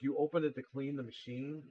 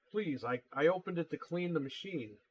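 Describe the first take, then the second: First: Retold disbelieving question, rising at the end; incredulous echo question. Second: Mildly nervous plea with a false start; imitated nervous customer. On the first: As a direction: echo the excuse back in mild disbelief. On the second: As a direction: imitate a flustered customer excusing himself. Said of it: "started getting all nervous".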